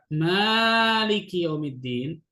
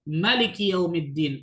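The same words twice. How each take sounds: First: The vowel after the M is drawn out long. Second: The vowel after the M is kept short. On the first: It means owner or ruler. "Bisa dibaca panjang mimnya, dua harokat" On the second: It means king. "pendek semua"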